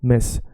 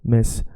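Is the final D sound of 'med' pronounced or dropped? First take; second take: dropped; dropped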